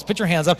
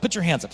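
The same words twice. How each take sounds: First: Louder, pushing the crowd; urging the audience louder. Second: Said in the usual way. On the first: Real, not acted. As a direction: press them to raise hands. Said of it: "Fifteen-year-old girls". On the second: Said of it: "How many of you girls".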